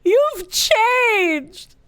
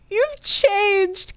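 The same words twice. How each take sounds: First: Hurt accusation. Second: Wounded drama. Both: Acted. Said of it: "Give that woman the Oscar".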